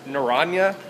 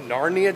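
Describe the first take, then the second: First: "Narania" with an extra middle syllable; as written. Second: "Narnia" said like the fantasy land; own pronunciation. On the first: Vlogger reads the juice label "Narania", as written, nuh-RAHN-yuh. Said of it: "It says Narania". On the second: Vlogger renames the juice "Narnia", own pronunciation NAR-nee-uh. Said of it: "I pronounce it Narnia". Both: Shown as a demonstration.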